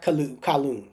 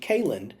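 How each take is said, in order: First: The last syllable sounds like 'lun'. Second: The last syllable sounds like 'len'. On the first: The speaker calls it wrong. "not Kalun" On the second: The speaker calls it right. "the last name pronunciation is actually Kalen"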